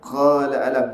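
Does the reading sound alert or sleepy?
alert. The reading sounds alert and crisp. The speaker calls it right.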